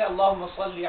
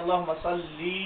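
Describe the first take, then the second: First: The final vowel of salli is short. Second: The final vowel of salli is drawn out long. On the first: The request is addressed to God. The speaker calls it right. "এটা ঠিক আছে" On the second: The request is addressed to a woman. The speaker calls it wrong. "সাল্লি টান দিয়ে"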